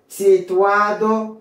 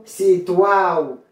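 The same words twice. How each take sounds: First: Situado slowly with "-A-do" sounded; "Situado" ending in a distinct "-ado"; full D. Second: Situado said "si-TUAO", slow and falling; "situado" with its D silent; dropped D. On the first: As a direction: say Situado in full, D clearly heard. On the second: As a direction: slide A into O in situado. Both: Shown as a demonstration. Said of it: "ou qu'à prononcer ou qu'à pas".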